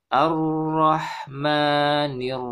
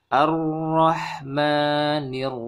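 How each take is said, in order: No difference in how they are said.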